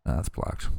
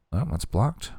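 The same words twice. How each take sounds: First: Unvoiced, softly repeated; whispered aside. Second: Said in the usual way. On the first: Shown as a demonstration. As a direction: whisper it to yourself.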